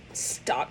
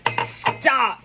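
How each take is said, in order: First: Stop. hissed as a whisper. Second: Said in the usual way. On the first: Retold or imitated. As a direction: shush a friend under your breath. Hushing a friend at the table.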